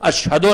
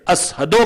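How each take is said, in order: First: The word is said with a 'sh' sound. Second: The word is said with an 's' sound. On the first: This is the form he could not say. "अशहदो नहीं कह सकते थे" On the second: This is how he actually said it. "शीन की जगह सीन की आवाज निकालते थे"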